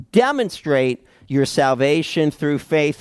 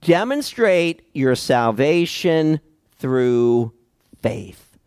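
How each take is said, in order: First: Said in the usual way. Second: Slow emphatic point. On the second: Shown as a demonstration. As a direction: lay the first point out slowly, word by word. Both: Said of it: "remind us of our first point".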